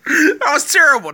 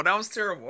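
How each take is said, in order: First: Loud laughing outburst on terrible; bursting out laughing through the words; cracking up at his own joke; laughing loudly. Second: Said in the usual way. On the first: Real, not acted. Laughing at his own bad pitch.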